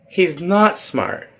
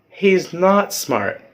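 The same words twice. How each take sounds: No difference in how they are said.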